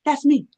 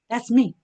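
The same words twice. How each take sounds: First: That's me, said brighter and louder with pitch up; proud hyped-up That's me; louder, higher excited. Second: Said in the usual way. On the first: Shown as a demonstration. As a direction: punch it up proudly, owning it. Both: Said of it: "That's how I talk".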